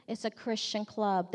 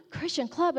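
First: Said in the usual way. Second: Higher, incredulous question; shocked echo. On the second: Retold or imitated. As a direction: echo it back as mock shock.

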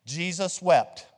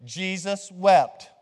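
First: Slow, drawn-out recitation for the class to repeat; slow demo recitation. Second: Louder and slower, every word drawn out; louder slow recitation. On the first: Pastor leading the congregation in call and repeat, slow and measured. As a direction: say it slowly so they can echo it. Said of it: "Watch me and then repeat". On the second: Pastor checking the congregation got it, louder and slow. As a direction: call it out big for the room to repeat. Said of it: "I wanna make sure you're, you're good". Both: Shown as a demonstration.

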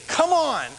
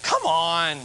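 First: Higher, cheering call from the pews; congregation's encouragement. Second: Low, drawn-out snarky jab; a lower, mock-snide imitation. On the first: Retold or imitated. Congregation member cheering the preacher on, encouraging call. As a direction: lightly imitate an amen-style cheer. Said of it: "they would say". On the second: Churchgoer seeming to jeer at a new preacher, snarky. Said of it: "like, being snarky".

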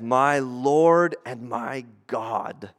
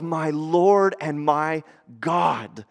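First: Slow, low, hushed awe; awed confession. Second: Slow, steady declaration; the preacher quoting Thomas, slow and plain; slow confession. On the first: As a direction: breathe it out in worship. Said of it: "I love Thomas's response". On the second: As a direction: say it as a firm statement. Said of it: "he goes". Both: Retold or imitated.

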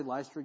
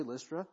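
First: "Lystra" with first vowel as in "lie"; long i pronunciation. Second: "Lystra" with first vowel as in "list"; short i pronunciation. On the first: Preacher giving his own way of saying it, "Lystra" as LICE-truh. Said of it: "So I say Lystra". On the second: Preacher giving the congregation's way of saying it, "Lystra" as LISS-truh. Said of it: "you say Lystra". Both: Shown as a demonstration.

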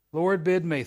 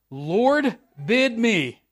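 First: Said in the usual way. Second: Peter calling out. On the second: Shown as a demonstration. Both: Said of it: "I did that right, didn't I?".

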